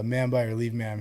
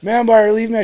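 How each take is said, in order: First: Soft, low-key formal response; understated, hesitant sounding-off; subdued recruit reply. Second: High, loud sounding-off; pitched-up mock military shout; loud recruit callout. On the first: Retold or imitated. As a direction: imitate a recruit saying it meekly. First, timid take of the line. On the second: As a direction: imitate a recruit belting out the formal response. Retold recruit sounding off louder.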